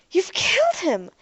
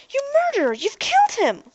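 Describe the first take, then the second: First: A high, loud accusing cry; acted scream. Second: A much higher, louder shrieking accusation; acted scream. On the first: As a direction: scream it at the robot in shock. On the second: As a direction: shriek it at the robot, outraged. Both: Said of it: "Ariel screamed".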